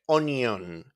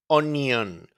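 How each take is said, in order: No difference in how they are said.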